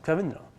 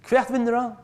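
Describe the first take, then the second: First: Said in the usual way. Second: Raised question. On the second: Shown as a demonstration. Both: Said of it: "Det er også interessant".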